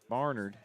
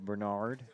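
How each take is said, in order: First: The first syllable sounds like 'bar'. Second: The first syllable sounds like 'ber'. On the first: This is the pronunciation familiar from the speaker's hometown. "Where I was growing up, that name was pronounced Barnard" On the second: This is the pronunciation the local radio crew uses. "I just heard the radio folks say Bernard"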